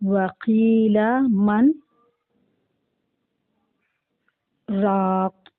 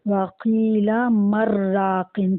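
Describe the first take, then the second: First: A brief stop without breath follows 'man'. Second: The words run together with the n merged. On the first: The speaker calls it right. "लेकिन हमें यहाँ रुकना है" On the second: The speaker calls it wrong. "अगर हम इसको वस्ल के साथ पढ़ें तो क्या पढ़ेंगे?"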